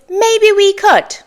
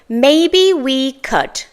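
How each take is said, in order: First: It is said at normal speed. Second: It is said slowly.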